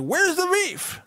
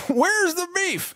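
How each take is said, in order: First: Put-on high squeaky old lady. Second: Put-on high squeaky old lady, drawn out; slow old lady voice. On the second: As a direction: stretch it slowly like the old lady in the ad. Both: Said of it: "that old lady's like".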